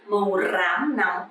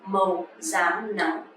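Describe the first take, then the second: First: Rám begins with an R sound. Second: Rám begins with a Z sound. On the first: "you don't have to pronounce" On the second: "but you can pronounce"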